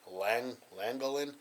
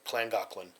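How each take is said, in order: First: The name begins with a plain L sound. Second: The name begins with a KL sound. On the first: The speaker calls it wrong. "I completely butchered the name of the town. The whole time I was calling it" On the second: The speaker calls it right. "the double L makes a K and L sound"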